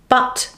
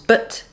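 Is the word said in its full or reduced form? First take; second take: full; reduced. First: The word is said in its full strong form. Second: The word is said in its reduced weak form.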